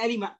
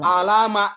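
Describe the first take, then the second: First: The vowel after the l is i. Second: The vowel after the l is a. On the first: The speaker calls it right. "Di Al-Quran pasti bilangnya alima" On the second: The speaker calls it wrong. "nggak boleh ... salah itu"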